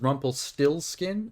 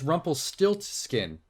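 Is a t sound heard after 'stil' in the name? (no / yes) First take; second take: no; yes. First: The middle is said 'stillskin' with no t. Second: The middle is said 'stiltskin' with a t. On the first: The speaker calls it wrong. "I used to think that Rumpelstiltskin's name was" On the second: The speaker calls it right. "it's Rumpelstiltskin with a T"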